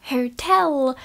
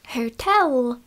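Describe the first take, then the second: Both takes have the same delivery.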